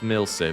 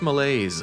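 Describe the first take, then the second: First: The name is said as the shorter form Milse. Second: The name is said like the word malaise. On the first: The speaker calls it right. "it's Milse" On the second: The speaker calls it wrong. "I'm probably going to mispronounce it as Malaise"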